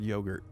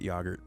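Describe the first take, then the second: First: The first vowel is a long 'oh' sound. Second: The first vowel is a short 'ah' sound. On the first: This is the familiar, usual pronunciation. "I've only heard yogurt" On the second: This is an unfamiliar, British-style pronunciation. "it's ah. Okay, like ah, yogurt. Really? I've never heard anybody pronounce it yogurt before"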